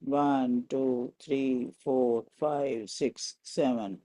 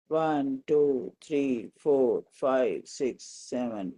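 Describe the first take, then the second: No difference in how they are said.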